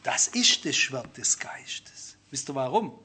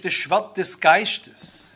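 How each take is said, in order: First: „das Schwert des Geistes“ tief, langsam und geflüstert, Betonung auf „ist“; ernst geflüstert. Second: „das Schwert des Geistes“ leicht und verspielt, langsam, mit Anstieg auf „Geistes“; beiläufig wie eine Floskel, gedehnt; spielerisch. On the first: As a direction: gewichtig gehaucht statt spielerisch. (leise, langsame, ernste Flüsterstimme) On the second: (leichthin gesagt, „Geistes“ hebt sich fragend) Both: Shown as a demonstration. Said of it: "man sagt immer so ein bisschen spielerisch".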